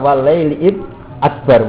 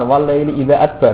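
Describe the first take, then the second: First: The word after 'wal laili' is 'id'. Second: The word after 'wal laili' is 'idza'. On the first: The speaker calls it right. "kan ndak idza toh napa? Id" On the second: The speaker calls it wrong. "populer idza"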